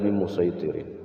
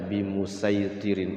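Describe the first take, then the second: First: The s sound is heavy and emphatic. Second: The s sound is light and plain. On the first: This is the well-known reading. "Yang yang masyhur itu adalah" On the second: Some reciters read it this way. "Walaupun ada yang membaca"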